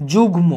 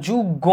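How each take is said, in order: First: যুগ্ম as "jug-mo", with a distinct m; m pronounced separately. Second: যুগ্ম as "jug-go", g doubled and no m; wrong doubled form. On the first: Teacher showing the unaltered m, m pronounced separately. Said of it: "আমি মটাকে আলাদাভাবে উচ্চারণ করতেছি". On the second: Teacher showing what not to say, doubled consonant. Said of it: "দ্বিত্ব করছি না". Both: Shown as a demonstration.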